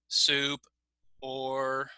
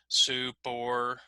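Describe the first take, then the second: First: The two words are separate and equally long. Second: The two words are joined and equally long. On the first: "say both words with the same time, the same length" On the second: "if I move the words together"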